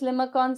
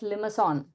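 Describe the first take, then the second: First: The last syllable starts with a k sound. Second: The last syllable starts with an s sound. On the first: This is the speaker's habitual pronunciation. The speaker calls it wrong. "Now I call this as limacon. Sorry for my pronunciation" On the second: This is the pronunciation the speaker believes is correct. The speaker calls it right. "I think it is called as limason"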